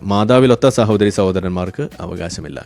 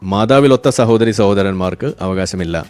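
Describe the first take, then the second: Both takes have the same delivery.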